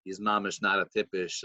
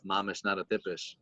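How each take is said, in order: First: Said in the usual way. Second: Softer, half-swallowed mumble; a rebbe muttering his verdict under his breath, softer; mumbling to himself. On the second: Retold or imitated. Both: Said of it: "he's mumbling to himself".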